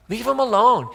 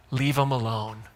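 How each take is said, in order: First: Higher, louder "Leave 'em alone"; emphatic repeat. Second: Said in the usual way. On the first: Retold or imitated. Preacher repeating Jesus' dismissal of the Pharisees, louder. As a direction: punch "Leave 'em alone" up high and loud. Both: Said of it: "And he's like".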